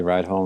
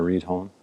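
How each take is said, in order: First: "Reidholm" with first syllable rhyming with ride; Reidholm pronunciation. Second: "Reedholm" with first syllable rhyming with need; Reedholm pronunciation. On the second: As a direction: say "Reedholm" as REED-home. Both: Shown as a demonstration. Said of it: "how to pronounce their name".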